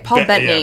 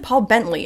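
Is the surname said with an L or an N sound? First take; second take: N; L. First: The surname has an N sound: Bentney. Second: The surname has an L sound: Bentley. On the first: The speaker calls it right. "It's Bentney" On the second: The speaker calls it wrong. "I always said Paul Bentley"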